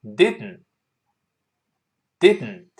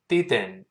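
First: "didn't" quicker, nasal release into the n; snappy "didn't", d released through the nose; faster reading. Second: "didn't" taken slowly, syllable by syllable; slow reading. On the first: Teacher speeds up the word, quicker "didn't". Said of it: "再快点儿". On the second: Teacher models the word first, slow "didn't". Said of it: "慢慢先读". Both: Shown as a demonstration.

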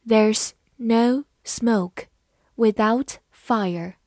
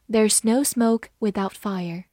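First: Slow, separated words; deliberate teacher's reading with pauses; slow model reading. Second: Said in the usual way. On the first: Shown as a demonstration. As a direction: take the proverb slowly, word by word. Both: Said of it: "慢慢来读".

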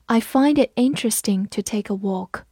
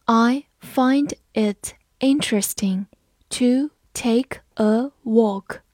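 First: Said in the usual way. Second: "I find it interesting to take a walk" read very slowly, word by word; slow teacher demo read. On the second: Shown as a demonstration. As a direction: read it slow and clear for learners. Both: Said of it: "我们慢读一遍".

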